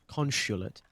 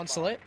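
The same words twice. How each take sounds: First: The word is said in a British accent. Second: The word is said in an American accent.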